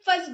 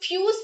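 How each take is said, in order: First: The vowel is a short 'uh' sound. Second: The vowel is a long 'you' sound. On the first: The speaker calls it right. "इसे हम फस बोलेंगे" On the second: The speaker calls it wrong. "इसको हम फ्यूज नहीं बोलेंगे"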